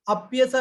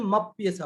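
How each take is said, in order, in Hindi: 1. यह शब्द अलग होकर 'a' की आवाज़ से शुरू होता है। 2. m अगले शब्द से जुड़कर उसी से शुरू होता है। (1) "अप्येषा नहीं पढ़ के" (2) "मप्येषा पढ़ेंगे"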